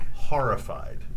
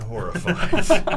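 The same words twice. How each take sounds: First: The word is said without a W sound. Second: The word is said with a W sound. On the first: The speaker calls it right. "There's no W in that word" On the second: The speaker calls it wrong. "not horrified"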